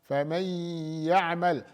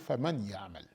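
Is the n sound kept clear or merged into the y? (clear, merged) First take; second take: merged; clear. First: The n merges into a nasalized, doubled y. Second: The n is pronounced clearly before the y. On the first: The speaker calls it right. "merge the nun into the ya... the gunna is maintained" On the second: The speaker calls it wrong. "you don't say فَمَن يَعْمَلْ. That's idhar"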